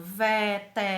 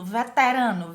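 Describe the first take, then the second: First: Syllable by syllable. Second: Said in the usual way. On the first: Shown as a demonstration. Teacher counting four syllables, syllable by syllable.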